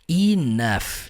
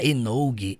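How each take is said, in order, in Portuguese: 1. A palavra termina com som de F. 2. A palavra termina com som de G. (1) "colocar o som do F" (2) "Você não fala Enoug"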